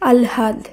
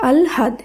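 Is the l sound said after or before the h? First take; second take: before; before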